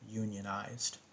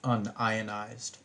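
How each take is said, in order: First: It is split as union-ized. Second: It is split as un-ionized. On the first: Workers belong to a union. "a plumber or someone else in the trades who may belong to a union would say" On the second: The substance is not ionized. "a chemist would typically say this word, pronounce it"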